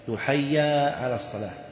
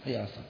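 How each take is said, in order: First: The first word ends in a long a vowel. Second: The first word ends in a short vowel. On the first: It reads as a dual form. The speaker calls it wrong. "حي هذه تثنية" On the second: It reads as a call to come. The speaker calls it right. "والصواب يقال حي على الصلاة"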